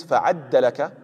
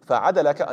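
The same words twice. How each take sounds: First: فَعَدَّلَكَ with a doubled, held d; second reading. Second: فَعَدَلَكَ with a single plain d; first reading. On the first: Preacher gives the alternate reading فَعَدَّلَكَ, doubled d. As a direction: say فَعَدَّلَكَ, fa-'ad-da-la-ka, lean on the double d. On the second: Preacher gives the first reading of فَعَدَلَكَ, one d. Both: Shown as a demonstration. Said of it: "another reading is".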